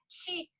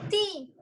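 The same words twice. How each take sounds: First: The t sounds like a 'ch' sound. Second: The t is a plain, clean t sound. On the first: This is the local regional way of saying it. The speaker calls it wrong. "a gente faz o tchá, tchê, ti" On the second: This is the way required for the English T. The speaker calls it right. "Nós temos que falar o T como os catarinas"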